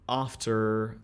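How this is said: The first vowel is a broad open 'ah'. "a lot of times they will go for the ah"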